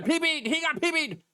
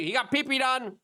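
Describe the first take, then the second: First: Much higher squeaky mock of a news anchor; mocking CNN. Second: High mocking voice imitating the media crowd; mocking gossip. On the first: Host mocking CNN anchors, very high and ridiculing. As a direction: overdo it, shrill and silly. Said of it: "C N N". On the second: Host imitating everyone's gossip, high and mocking. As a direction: sneer it in a higher sing-song. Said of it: "everyone's like".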